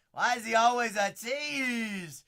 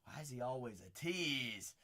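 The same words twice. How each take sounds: First: Loud, high, slow yell; frustrated shout. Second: Muttered low and quiet to himself; muttered tease. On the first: Card breaker yells at a teasing pull, loud and high. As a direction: belt it out in mock outrage. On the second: Card breaker mutters at the pull, quiet and low. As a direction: grumble it under your breath. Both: Real, not acted.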